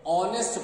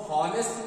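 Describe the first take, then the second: First: "ऑनेस्ट" with a silent h; correct pronunciation. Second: "हॉनेस्ट" with the h sounded; wrong pronunciation. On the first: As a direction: say "ऑनेस्ट" starting straight on the vowel. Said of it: "ऑनेस्ट पढ़ते हैं". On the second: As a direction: say "हॉनेस्ट" with an audible h at the start. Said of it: "हॉनेस्ट नहीं पढ़ते हैं". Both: Shown as a demonstration.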